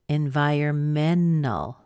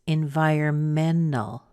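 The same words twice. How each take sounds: The two takes are said the same way.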